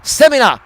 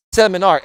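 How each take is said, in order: First: Seminar in higher voice, ending NAH; mispronounced seminar. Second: Said in the usual way. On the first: Shown as a demonstration. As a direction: seminar with no final R, open AH. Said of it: "S E M I N A H". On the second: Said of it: "S E M I N A R".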